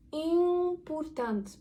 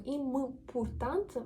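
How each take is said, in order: First: IMPORTANT opening on a long, high nasal vowel; nasal Portuguese M. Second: IMPORTANT with a fully sounded M, lips closing; closed-lip M, mistaken. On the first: Teacher shows the correct way, IMPORTANT with drawn-out nasal vowel. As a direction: stretch the nasal start of IMPORTANT without closing the lips. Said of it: "Ми пускаємо і вниз, носовий". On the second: Teacher shows what we don't say, IMPORTANT with a hard M. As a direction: say IMPORTANT as im-m-portant, pronouncing the M. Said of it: "ми не кажемо". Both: Shown as a demonstration.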